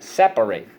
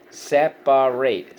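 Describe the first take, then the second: First: Said in the usual way. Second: Slow SEP-A-RATE for "separate"; syllable by syllable. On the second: Shown as a demonstration. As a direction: draw out "separate" in three beats with full -ate ending. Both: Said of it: "so let's go".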